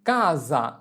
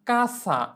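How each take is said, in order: First: The middle consonant is a buzzing z sound. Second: The middle consonant is a hissing s sound. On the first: The speaker calls it right. "আমাদের এস এর উচ্চারণ করতে হবে জ এর মতো" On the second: The speaker calls it wrong. "কাসা এভাবে করে উচ্চারণ করা যাবে না"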